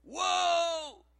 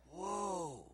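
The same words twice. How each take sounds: First: High, drawn-out amazement. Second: Low, soft, drawn-out awe; quietly awed. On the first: Speaker amazed by friend's insight, wide-open amazement. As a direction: raise it into a big, high exclamation. His amazed reaction, bigger take. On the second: Speaker amazed by friend's insight, quietly awed. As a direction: let the amazement out softly and low. His amazed reaction, first take. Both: Retold or imitated.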